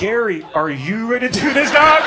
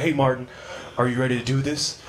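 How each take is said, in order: First: Rising to a loud, high disbelief; incredulous comeback. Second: Low, subdued mock trainer greeting; low-key trainer. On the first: Retold or imitated. Client doubting his overweight trainer, loudly incredulous. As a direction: throw the question back, climbing loud on the end. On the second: Sad trainer greeting his client at the gym, low-key. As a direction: ask it low and unexcited.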